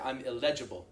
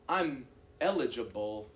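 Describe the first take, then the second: First: The word is stressed on an unexpected syllable. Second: The word carries its usual stress pattern. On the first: The speaker calls it wrong. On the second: The speaker calls it right.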